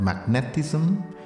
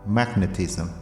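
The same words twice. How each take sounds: First: The stress is not on the first syllable. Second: The stress is on the first syllable. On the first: The speaker calls it wrong. "not magnetism" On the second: The speaker calls it right. "we stress the first syllable"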